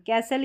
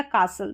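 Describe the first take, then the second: First: कैसल with an "ai" vowel, silent T; castle with short A. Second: कासल with a long "aa", silent T; castle with long AA. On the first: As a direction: say कैसल as "KASS-ul". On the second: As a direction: say कासल as "KAA-sul". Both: Shown as a demonstration. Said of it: "दोनों तरीके से आप इसको pronounce".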